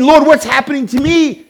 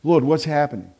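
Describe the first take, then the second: First: Raised, higher-pitched appeal to the Lord; pleading to God. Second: Low, soft appeal to the Lord; hushed prayer. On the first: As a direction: call it up to God. Acting out people crying to God. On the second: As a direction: drop to a subdued, private plea. Same appeal, now hushed after pause. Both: Acted.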